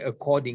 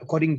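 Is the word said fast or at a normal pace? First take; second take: normal; fast. First: The word is said at a normal, careful pace. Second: The word is said fast and run together.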